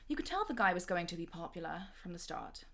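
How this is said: It is read in a posh English accent. "So I'll just do it in the posh English accent"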